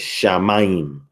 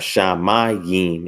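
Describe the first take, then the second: First: The middle vowels merge into one diphthong. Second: The middle vowels are said as separate sounds. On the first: The speaker calls it right. "it's shamayim" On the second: The speaker calls it wrong. "How you don't have shamayim"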